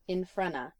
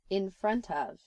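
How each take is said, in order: First: The last words run together into a reduced form. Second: All words are pronounced fully and separately.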